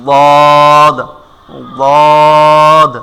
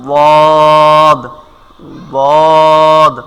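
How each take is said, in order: Both takes have the same delivery.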